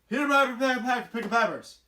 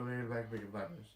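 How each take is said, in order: First: It is mumbled loudly. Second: It is mumbled quietly.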